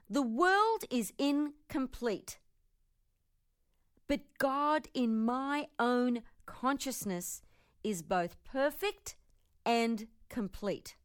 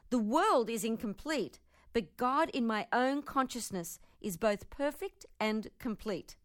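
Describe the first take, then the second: First: It is said slowly. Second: It is said at normal speed.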